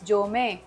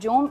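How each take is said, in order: First: The word ends in an 'ay' vowel. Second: The word ends on a consonant. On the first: The speaker calls it right. "It's जोमे" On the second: The speaker calls it wrong. "It's not जोम"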